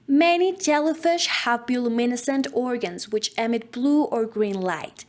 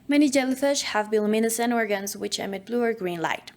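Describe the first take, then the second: First: Every word is over-enunciated with exaggerated articulation. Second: Words are articulated in a normal, relaxed way. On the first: "just over enunciating every word, exaggerating the muscles on our face" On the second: "In a normal manner, just normal"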